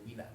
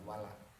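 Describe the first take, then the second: First: The first vowel is an 'i' sound. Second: The first vowel is an 'a' sound. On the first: The speaker calls it right. "Bacanya wila" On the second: The speaker calls it wrong. "jangan wala"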